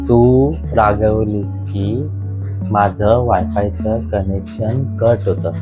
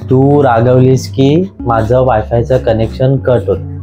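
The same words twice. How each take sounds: First: The sentence is said more slowly. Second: The sentence is said at normal fast speed.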